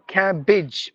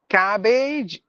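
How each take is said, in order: First: The last syllable has a short vowel. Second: The last syllable has a long vowel. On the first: The speaker calls it right. "you have to give the less, I mean, the short sound" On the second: The speaker calls it wrong.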